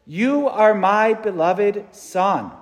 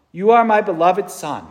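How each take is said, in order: First: Slow, weighty voice from heaven; slow solemn quote. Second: Said in the usual way. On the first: Shown as a demonstration. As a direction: lay each word down slowly. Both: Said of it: "spoke from heaven".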